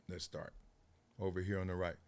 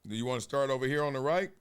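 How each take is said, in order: First: Quiet answer. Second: Fast question. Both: Real, not acted.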